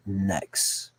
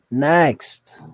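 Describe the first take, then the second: First: Said in the usual way. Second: NEXT called out loud and higher; emphatic call. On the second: Real, not acted. Reactor moving on from the clip, emphatic call on NEXT. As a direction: punch out NEXT as a loud dismissal. Repeats the word much more forcefully.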